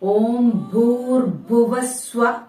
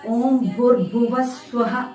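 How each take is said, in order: First: The last word ends plainly in 'sva'. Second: The last word ends with an added 'ha' sound. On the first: The speaker calls it right. "അതാണ് വരേണ്ടത്" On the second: The speaker calls it wrong. "പലരും ഓം ഭൂർഭുവ സ്വഹ എന്ന് ഉച്ചരിക്കുന്നത് കേട്ടിട്ടുണ്ട്"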